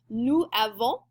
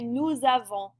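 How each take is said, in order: First: The words are kept apart with no z sound. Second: A z sound joins the two words smoothly. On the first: The speaker calls it wrong. "which doesn't sound bad, but it's not very smooth" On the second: The speaker calls it right. "it sounds better to say"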